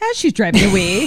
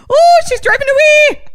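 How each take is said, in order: First: Squeaky little leprechaun voice. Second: High, loud leprechaun squeak. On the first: Retold or imitated. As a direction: say it like a tiny leprechaun. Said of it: "It sounded like a little, a little leprechaun". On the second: Shown as a demonstration. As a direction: chirp it like a little leprechaun. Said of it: "a little leprechaun".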